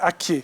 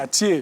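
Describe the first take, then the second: First: The middle consonant is a K sound. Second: The middle consonant is a T sound. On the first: This is the true local pronunciation. The speaker calls it right. "La vraie prononciation, je pense que c'est Akier" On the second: This is the usual outside pronunciation. The speaker calls it wrong. "on est très habitué à dire Atier"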